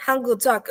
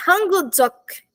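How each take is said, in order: First: Said in the usual way. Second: Hangul Dzok said slowly, every syllable clear; teacher slowly modelling Hangul Dzok; slow pronunciation demo. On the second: Shown as a demonstration. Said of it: "tá vendo esse".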